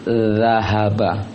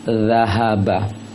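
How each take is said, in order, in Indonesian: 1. Konsonan pertama menempatkan ujung lidah di gigi. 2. Konsonan pertama menempatkan ujung lidah di gigi.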